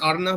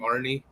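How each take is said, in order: First: The name is said in its native form. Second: The name is said in an anglicized form. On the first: The speaker calls it right. "it's Arna" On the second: The speaker calls it wrong. "I just ended up pronouncing him Arnie"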